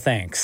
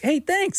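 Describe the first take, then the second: First: It sounds annoyed, with an eye roll. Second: It sounds sincere and warm.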